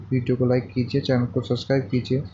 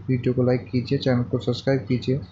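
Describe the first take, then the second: No difference in how they are said.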